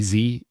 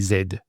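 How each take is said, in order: First: The letter is said the American way, zee. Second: The letter is said the Australian way, zed.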